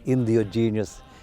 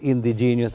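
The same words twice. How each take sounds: First: The word is deliberately pronounced in an altered way. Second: The word has its usual standard pronunciation. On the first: "I further mispronounced"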